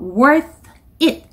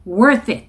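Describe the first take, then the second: First: The two words are said separately. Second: The two words are linked together. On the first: The speaker calls it wrong. "따로 읽지 마시고" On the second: The speaker calls it right. "이렇게 붙여서 읽어주시면 좋겠고요"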